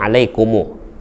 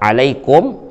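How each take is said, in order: First: The word ends with an added u vowel. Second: The word ends on the consonant m. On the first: "dipanjangkannya menjadi alaikumu. Itu namanya isba'" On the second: "Sebenarnya alaikum"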